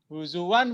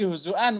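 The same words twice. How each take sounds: First: The middle sound is a 'w' sound. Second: The middle sound is a glottal stop. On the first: "Imam Hafs yang justru ... Mengibdal hamzah menjadi waw" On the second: "Dibalikin lagi sama Imam Qalun menjadi hamzah lagi ya"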